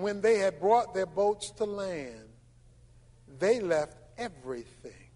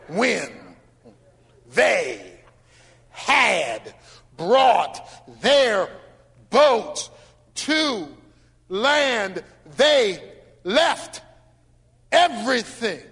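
First: It is read quickly. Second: It is read slowly, word by word.

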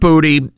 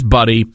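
First: The name has a long oo and t. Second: The name has a short uh and d. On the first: The speaker calls it wrong. "it is not Booty" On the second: The speaker calls it right. "It is Buddy"

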